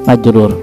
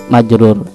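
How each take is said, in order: Both takes have the same delivery.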